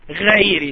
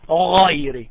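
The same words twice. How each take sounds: First: The first consonant is light and thin. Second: The first consonant is heavy and thick. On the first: The speaker calls it wrong. "Sometimes you hear someone saying غيري. No, that's a mistake" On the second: The speaker calls it right. "You should make it heavy. You should make it thick"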